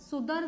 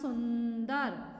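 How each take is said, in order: First: There is no n sound before the d. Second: An n sound comes before the d. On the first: The speaker calls it wrong. "सुदर नहीं होता" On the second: The speaker calls it right. "ना की ध्वनि"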